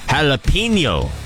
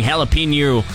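First: The word is said clearly and carefully. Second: The word is slurred and run together. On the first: The speaker calls it right. "There, I said it right" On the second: The speaker calls it wrong. "Felt like I slurred it there"

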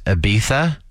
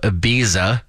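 First: It is said the original Spanish way. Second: It is said the usual anglicized English way.

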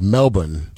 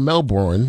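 First: The second syllable is short and weak, without r. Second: The second syllable sounds like Bourne, with r. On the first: It is the way locals say it. "They say it kind of like Melbourne" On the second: It is the way outsiders would say it. "which is probably how we would say it because it has an R in it"

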